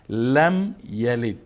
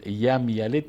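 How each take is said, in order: First: The first word begins with an l sound. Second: The first word begins with a y sound. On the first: The speaker calls it right. "لام است" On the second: The speaker calls it wrong. "یم یلد نمیخوانیم"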